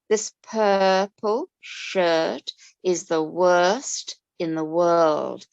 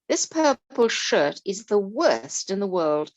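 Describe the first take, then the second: First: It is read slowly with the er sounds stretched. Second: It is read at a natural, even pace.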